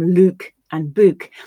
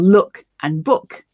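First: The words are said with a regional vowel. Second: The words are said with a standard vowel.

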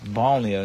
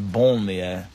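First: The first syllable sounds like English 'ban'. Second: The first syllable sounds like French 'bon'. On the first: People were banned to places outside the city. The speaker calls it right. "it's banlieue ... because people were banned there" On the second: It means a good place. The speaker calls it wrong. "not banlieue. Although banlieue means a good place"

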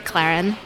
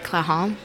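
First: It is pronounced the American way. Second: It is pronounced the French way. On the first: "In the U.S., we say Clarin" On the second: "In France, they say Clahan"

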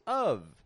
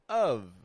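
First: It ends with a light v sound. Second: It ends with a light v sound.

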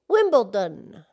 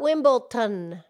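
First: The consonant before the last syllable is D. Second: The consonant before the last syllable is not D. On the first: The speaker calls it right. "It's a D" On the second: The speaker calls it wrong. "It's not Wimbledon"

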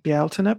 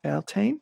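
First: The name is said in its Irish form. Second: The name is said in an anglicized form.

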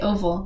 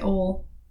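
First: The middle consonant is a V sound. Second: The middle consonant is a W sound. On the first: The speaker calls it right. "we say oval" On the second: The speaker calls it wrong. "We don't say ol"

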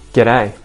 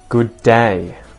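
First: It is said fast and run together. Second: It is said slowly and fully. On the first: "And then I'll say them fast" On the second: "I'm going to say these greetings and goodbyes first slow"

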